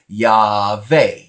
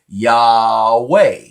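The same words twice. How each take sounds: First: The middle consonant is a V sound. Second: The middle consonant is a W sound. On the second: "if you are pronouncing traditionally uh, the Va as a W"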